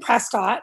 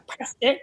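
First: The name is said the ordinary non-local way. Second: The name is said the way residents say it.

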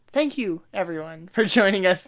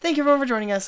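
First: The delivery is stiff and stilted. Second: The delivery is relaxed and natural. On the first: The speaker calls it wrong. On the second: The speaker calls it right.

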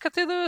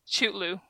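First: The name is said as 'Cthulhu'. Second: The name is said as 'Chutlu'. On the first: The speaker calls it right. "I guess Cthulhu is the right way to say it" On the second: The speaker calls it wrong. "I called this monster Chutlu. That's how I pronounce this word. That's wrong"

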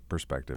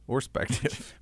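First: The word starts with a clear 'p' sound. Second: The word starts without any 'p' sound.

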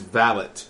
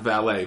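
First: It is said with the British pronunciation. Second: It is said with the American pronunciation. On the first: A personal manservant. The speaker calls it right. "the pronunciation of a gentleman, is valet" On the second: Someone who parks cars. The speaker calls it wrong. "not valet. Valet is a guy who parks a car"

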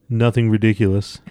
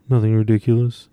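First: It is said plainly, as an ordinary reading. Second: It is said flat and awkward, imitating Renarin.

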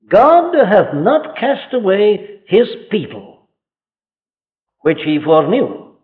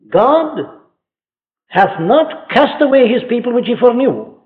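First: There is a pause before 'which he foreknew'. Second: It runs on without a pause before 'which'.

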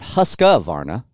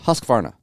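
First: An extra vowel sounds between q and v. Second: No vowel sounds between q and v. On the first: The speaker calls it wrong. "It's not Husqvarna" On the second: The speaker calls it right. "it's Husqvarna"

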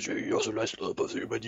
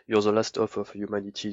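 First: It is said in an exaggerated gruff colonel voice. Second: It is said in a dark, solemn tone.

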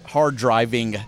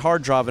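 First: The second word ends with a clear G sound. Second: The second word ends without a G sound. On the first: The speaker calls it wrong. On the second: The speaker calls it right.

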